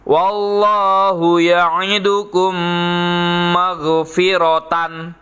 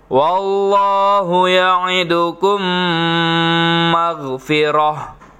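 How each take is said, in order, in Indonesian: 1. Kata terakhir berakhir dengan -tan penuh. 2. Kata terakhir berakhir dengan h sukun.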